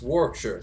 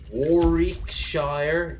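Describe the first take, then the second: First: The name is said quickly as one word. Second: The name is broken up into separate parts. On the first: The speaker calls it right. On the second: The speaker calls it wrong.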